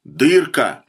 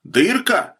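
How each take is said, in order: First: "Дырка" as a firm, falling statement; firm answer. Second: "Дырка" as a high, raised question. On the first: Officer answers the bandit's question, firm falling "Дырка". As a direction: answer "Дырка" squarely, with the pitch dropping. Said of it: "ответил подполковник". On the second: Bandit asks the officer his fate, questioning "Дырка" pitched high. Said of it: "спросил Фролов". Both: A narrator's reading.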